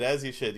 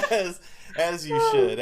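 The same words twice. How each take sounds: First: Said in the usual way. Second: Laughing. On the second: Real, not acted. Laughing approval after the scene.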